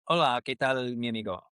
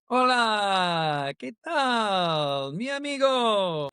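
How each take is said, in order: First: It is in a choppy, staccato local Spanish accent. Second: It is in a lilting, songlike Mexican Spanish accent.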